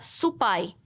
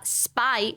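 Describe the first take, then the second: First: A vowel is added after the s. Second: It is said as one syllable, no added vowel. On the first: "o japonês... ele fala supai" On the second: "em vez de falar spy"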